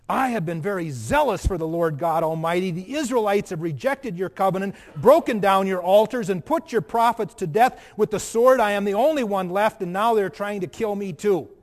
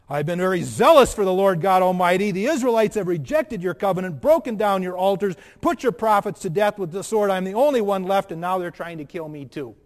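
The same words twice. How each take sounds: First: Louder, pleading prophet's lament; Elijah's complaint. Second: Much louder, insistent prophet's lament; Elijah's complaint louder. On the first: Preacher voices Elijah pleading his case to God, loud and aggrieved. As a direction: pour out the prophet's grievance to God. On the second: Preacher repeats Elijah's answer to God, louder and more insistent. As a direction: hammer out the grievance at full force. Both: Acted.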